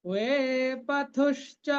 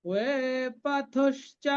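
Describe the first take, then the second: No difference in how they are said.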